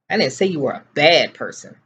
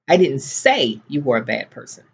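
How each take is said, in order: First: The word 'bad' carries the main stress. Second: The word 'say' carries the main stress. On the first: The speaker said something else about the listener. "I said you were completely ignorant" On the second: The speaker thought it but did not say it. "but I was thinking it"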